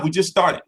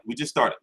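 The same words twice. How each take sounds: First: Said in the usual way. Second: Much softer and lower, almost to himself; quiet. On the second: Real, not acted. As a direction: say it again under your breath, muttered. Repeating himself, dropping his voice.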